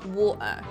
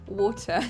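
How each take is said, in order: First: The middle consonant is a glottal stop. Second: The middle consonant is a clear T. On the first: "you say war and then uh" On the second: "the posh way then"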